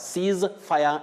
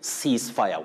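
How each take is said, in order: First: The S in 'cease' is voiced, buzzed. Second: The S in 'cease' is voiceless, hissed. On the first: The speaker calls it wrong. "Cease fire is inaccurate" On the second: The speaker calls it right. "that S takes the voiceless or what we call the unvoiced sound"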